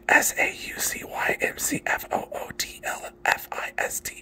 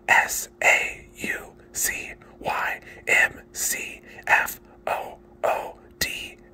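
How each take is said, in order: First: The letters are spelled out quickly. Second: The letters are spelled out slowly.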